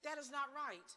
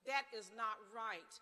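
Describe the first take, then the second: First: "not" punched high and loud; stress on not. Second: "That" leads, each word slow and loud; slow emphatic repeat. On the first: Speaker at rally stressing not, emphatic. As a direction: hit the word not hard. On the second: Speaker repeating to the crowd, slow and heavy. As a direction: drag out That is not right, weighty. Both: Real, not acted.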